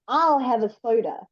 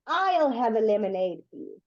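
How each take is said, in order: First: I'll given weight so the soda is yours; stress on I'll. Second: I'll stressed to claim the order. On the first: Teacher giving the student a second order, stress on I'll. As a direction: lean on I'll to claim the soda. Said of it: "you can say ... soda must now come to you". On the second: Teacher showing the student whose order it is, stress on I'll. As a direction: lean on I'll, the drink is mine. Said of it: "and I say, ... lemonade must come to me". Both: Shown as a demonstration.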